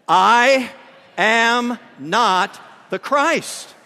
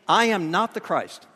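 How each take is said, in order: First: It is said firmly, with strong conviction. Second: It is said mildly and politely.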